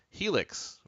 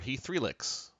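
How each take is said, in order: First: The middle is said as a short 'e' sound. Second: The middle is said as the word 'three'.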